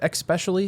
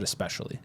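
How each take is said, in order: First: It begins with an 'eks' sound. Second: It begins with an 'es' sound. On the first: The speaker calls it wrong. "I didn't mean for that to sound like I said especially, because I know that's not the correct pronunciation" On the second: The speaker calls it right. "but I said especially"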